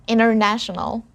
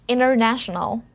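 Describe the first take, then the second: No difference in how they are said.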